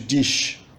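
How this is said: It is said with a northeastern Brazilian accent. "No Nordeste"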